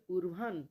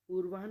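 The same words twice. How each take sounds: First: An h sound is heard before the n. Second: No h sound is heard before the n. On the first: The speaker calls it right. "वही है आधा होता है" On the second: The speaker calls it wrong. "पूर्वान न होकर के"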